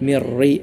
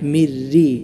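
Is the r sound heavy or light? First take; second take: heavy; light. First: The r is pronounced heavy and full. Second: The r is pronounced light and thin. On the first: The speaker calls it wrong. "എന്നല്ല" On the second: The speaker calls it right. "എപ്പോഴും തർക്കീക്ക് അഥവാ നേരിയതായ രൂപത്തിലാണ് ഉച്ചരിക്കേണ്ടത്"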